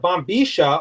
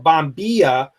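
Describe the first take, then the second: First: The double L sounds like 'sh'. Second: The double L does not sound like 'sh'. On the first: This is how it is said in Argentina. "In Argentina, they pronounce the double L, sh" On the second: This is how it is said outside Argentina. "as is pronounced in any other country outside of Argentina"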